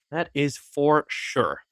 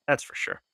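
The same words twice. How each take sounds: First: Slow and drawn out; slow deliberate. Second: Whispered. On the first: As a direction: stretch it out slowly. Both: Shown as a demonstration.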